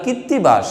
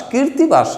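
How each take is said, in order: First: কীর্তিবাস as kit-ti-bash, no r before t; correct name. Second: কীর্তিবাস as kir-ti-bash, higher, r sounded; rejected mispronunciation. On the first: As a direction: double the t in কীর্তিবাস. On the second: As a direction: put an r before the t in কীর্তিবাস. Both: Shown as a demonstration. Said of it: "কীর্তিবাস না".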